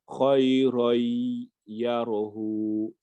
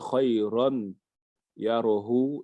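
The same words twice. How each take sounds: First: The n sound merges into a doubled y sound. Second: The n sound is clearly heard before the y. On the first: The speaker calls it right. "comme s'il remplaçait le nun qu'il y a là ... par un ya" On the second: The speaker calls it wrong. "au lieu de dire"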